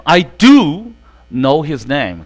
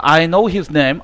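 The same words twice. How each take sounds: First: "do" punched louder, then "know his name" falls; stress on do. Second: Said in the usual way. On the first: Shown as a demonstration. Teacher contrasting plain and emphatic "do". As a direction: hit "do" hard before "know his name". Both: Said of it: "강조의 do는 강세가 있다".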